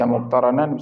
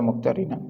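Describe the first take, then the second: First: The vowel after the r is a. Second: The vowel after the r is i. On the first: "bisa dibaca muqtaranan" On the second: "Sebagian riwayat mengatakan muqtarinan"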